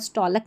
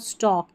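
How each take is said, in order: First: The L sound is pronounced. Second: The L sound is silent. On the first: The speaker calls it wrong. "नहीं बोलते" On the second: The speaker calls it right. "इस तरीके से पढ़ते हैं"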